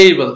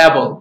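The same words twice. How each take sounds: First: "able" with a long "ay" opening, "AY-bul"; "able" with a clear gliding first vowel; correct pronunciation. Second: "able" with a flat opening vowel, like "abble"; "able" opened on a short e, no glide; Bengali-accent pronunciation. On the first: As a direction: say "able" starting like the letter A. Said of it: "It's the right pronunciation". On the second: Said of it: "everyone say". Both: Shown as a demonstration.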